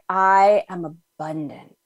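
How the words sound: It is said slowly with settled, felt conviction.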